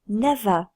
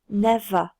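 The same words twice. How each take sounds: The two takes are said the same way.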